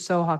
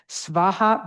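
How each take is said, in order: First: The word is said with non-Sanskrit pronunciation. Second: The word is said with Sanskrit pronunciation. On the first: "I go with the Soha because that's how I learned it" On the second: "sometimes it's it is pronounced with Sanskrit pronunciation"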